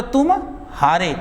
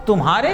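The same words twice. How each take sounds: First: "तुम", a clear pause, then "हारे"; pause between words. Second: Said in the usual way. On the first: Shown as a demonstration. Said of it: "जैसे आप लोग के बोले". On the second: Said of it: "एक साथ बोलो".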